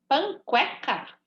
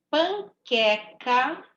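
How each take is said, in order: First: The QU sounds as K followed by U. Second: The QU sounds as a plain K. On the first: The speaker calls it wrong. "Se fosse para eu ouvir o som do U" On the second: The speaker calls it right. "Não estou ouvindo o som do U"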